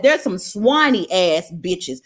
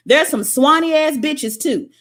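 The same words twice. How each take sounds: First: There's some swiny ass bitches said slower and lower, each word leaned on; slow emphatic repeat. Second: Said in the usual way. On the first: Shown as a demonstration. Making it clear to viewers, slower and lower. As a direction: land it heavy and deliberate. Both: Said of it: "Let me go ahead and be clear about that".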